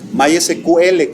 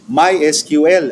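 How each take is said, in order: First: It is read with Spanish-style letter sounds. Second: It is read with English letter sounds. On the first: The speaker calls it wrong. "que le dicen" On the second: The speaker calls it right. "se pronuncia en inglés"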